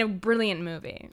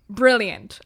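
First: Said in the usual way. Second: "Brilliant." repeated louder with a falling finish; "Brilliant." said again, louder, to drive the point home; emphatic repeat. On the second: Real, not acted. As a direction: land "Brilliant." as a firm, louder final verdict.

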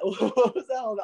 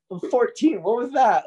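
First: High, slow, laughing through it; laughing disbelief. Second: High, loud disbelief; can't believe what just happened; baffled exclaim. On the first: Repeating the question, laughing in disbelief. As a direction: giggle at the absurdity. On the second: Recalling the odd stranger, baffled high exclaim. Bewildered teen after stranger's joke. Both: Real, not acted.

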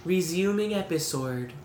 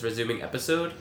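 First: Higher, posh British "Resuming episode" with rounded vowels; imitating a British voice assistant. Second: Said in the usual way. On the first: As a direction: mimic the app's woman voice saying "Resuming episode". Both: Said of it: "the way she says it is like".

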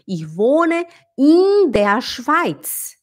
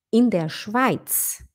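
First: "in" stretched to "eeen"; very slow, higher line dwelling on "in"; wrong long i. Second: "in" brief and lax before der Schweiz; slow phrase with a quick, unstretched "in"; short i. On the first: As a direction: overdo a long ee in "in". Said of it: "a Samia não vai dizer". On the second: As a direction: keep the vowel of "in" short. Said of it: "É um i curto". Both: Shown as a demonstration.

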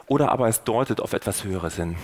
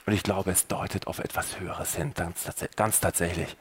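First: Said in the usual way. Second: Much softer, lower, almost breathed confession; hushed conviction. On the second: Real, not acted. Preacher confides his own faith to the listener, hushed. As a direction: lean in and murmur your belief.

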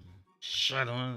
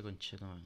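First: Slow, louder, stretched-out curse; drawn-out groan curse. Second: Said in the usual way. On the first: Real, not acted. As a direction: drag the word out in exasperation. Maldice dos veces el ensayo. (maldición alargada y fuerte)

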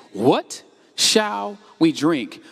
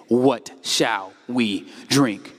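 First: Slow, drawn-out whiny grumble; grumbling complaint. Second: Very slow, low, sulky grumble; grumbling complaint. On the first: Preacher voicing the grumbling people, slow and whiny. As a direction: drag the question out like a grumbler. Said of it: "So the people grumbled". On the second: Preacher acting the grumbling crowd, low and slow. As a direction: moan the words out like a complainer. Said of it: "It says the people grumbled". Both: Shown as a demonstration.

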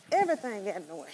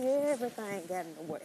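First: Everything said louder with a falling stress; emphatic repeat. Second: Said in the usual way. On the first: Real, not acted. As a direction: lean on "Everything".

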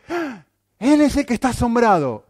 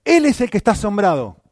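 First: High, loud gasp of mock astonishment; preacher voicing Simón's amazement, mock astonished. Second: "él" punched high and loud; stress on ÉL. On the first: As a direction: play Simón gaping in wonder, hammed up. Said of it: "y ahora nos dice". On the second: Shown as a demonstration. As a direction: lean hard on "él" to point at Simón.

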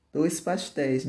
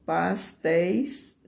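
First: Said in the usual way. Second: "pastéis" drawn out with a rising end; slow, leading "pastéis", left hanging; slow dictation. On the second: Shown as a demonstration. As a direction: stretch "pastéis" slowly for pupils to write. Teacher builds the diminutive for pupils.

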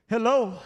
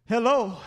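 No difference in how they are said.

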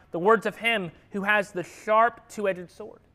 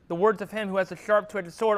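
First: Slow, weighty reading of the verse; slow scripture reading. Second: Said in the usual way. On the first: Shown as a demonstration. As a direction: let each word of the verse land slowly.

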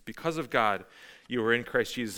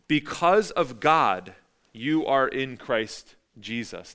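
First: Said in the usual way. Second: Slow, weighty, each word set apart; deliberate, slowed-down quotation; slow scripture reading. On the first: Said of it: "That's Paul's cause". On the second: Shown as a demonstration. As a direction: read it out slowly as scripture. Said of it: "he says it like this".

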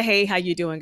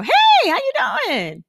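First: Said in the usual way. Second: Greeting pitched way up, ringing and louder; high sing-song hello. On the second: Shown as a demonstration. Showing how she greets clients, high and sing-song. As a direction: sing it out like a hostess.

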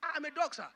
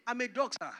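First: Higher, chuckling humble admission; laughing humbly. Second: Said in the usual way. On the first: Acted. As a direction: accept the insult with a laugh. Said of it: "she enters into character". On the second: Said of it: "She said".

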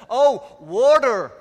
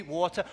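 First: High, loud, drawn-out American "Oh, water"; mock American realisation, stretching "water" slowly; exaggerated American accent. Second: "water" with a crisp t and no final r; British pronunciation. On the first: American finally understands the preacher, exaggerated American accent. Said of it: "That's how they pronounce it in the States". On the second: Retold or imitated. Preacher repeats himself to puzzled Americans, British "water". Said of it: "I ask for water".

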